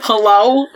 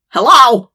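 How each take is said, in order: First: Louder, higher mock-disgusted hello; mocking Sam's lame comeback, disgusted. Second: A limp, loud hello; flat dumb hello. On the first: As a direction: sneer the word hello back at him. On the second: Retold or imitated. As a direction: say hello like you have nothing better. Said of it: "That's what you come back with?".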